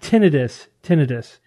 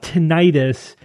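First: The ending does not sound like '-itis'. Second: The ending sounds like '-itis' in appendicitis. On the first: The speaker calls it right. "It's tinnitus" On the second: The speaker calls it wrong. "It's not tinnitus because it's not inflammation of anything"

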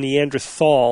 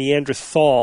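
First: The middle consonant is said as a 'th' sound. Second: The middle consonant is said as a 'th' sound.

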